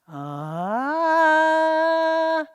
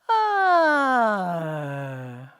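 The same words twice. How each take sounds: First: The pitch glides from low to high. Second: The pitch glides from high to low. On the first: "from lowest pitch to highest pitch. So let me show you" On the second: "High to low. So let's go like this"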